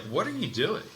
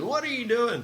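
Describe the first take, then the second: First: Mild abrupt demand. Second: Sharp, much higher mock demand; abrupt demand. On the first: Retold or imitated. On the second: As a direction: snap the question like a startled client. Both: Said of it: "he can have an abrupt tone sometimes".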